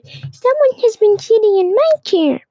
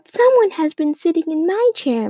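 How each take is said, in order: First: The voice is tiny and small. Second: The voice is of medium size. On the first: "Baby Bear cried in his tiny little voice" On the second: "Mama said in her medium-sized voice"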